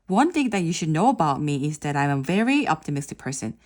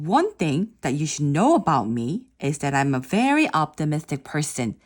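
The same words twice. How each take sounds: First: It is read plainly, like a memorized text. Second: It is read with lively intonation and pauses. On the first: The speaker calls it wrong. "그냥 다시 한번 이거를 그냥 읽어볼게요" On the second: The speaker calls it right. "단어의 발음과 인토네이션을 정확하게 하고 퍼스도 조금 이용했죠"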